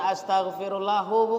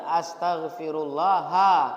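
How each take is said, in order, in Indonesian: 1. Kata itu berakhir dengan vokal 'u'. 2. Kata itu berakhir dengan vokal 'a'. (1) "Bukan astaghfirullahu, bukan" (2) "Yang benar astaghfirullaha"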